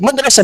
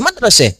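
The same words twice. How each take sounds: First: The final vowel is an open 'a'. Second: The final vowel is shifted toward 'e'.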